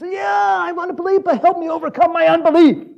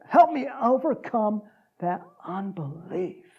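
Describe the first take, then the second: First: High, loud, hammed-up begging; impassioned high-pitched outcry; desperate plea. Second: Slow, deliberate delivery; measured, weighty restatement; slow repeat. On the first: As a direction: cry out for help, building louder. Father begging Jesus for help. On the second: Acted. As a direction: draw each word out, easing down at the end. Preacher repeats the line deliberately.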